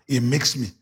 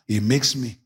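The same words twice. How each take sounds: The two takes are said the same way.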